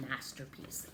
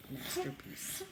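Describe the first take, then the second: First: Masterpiece whispered softly; whispered word. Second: Masterpiece said clearly with the s held; spoken word. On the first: Teacher modelling the word masterpiece, whispering. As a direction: breathe out masterpiece as a treat. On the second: Teacher repeating masterpiece for the kids to copy. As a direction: say masterpiece plainly. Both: Shown as a demonstration. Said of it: "You can say that".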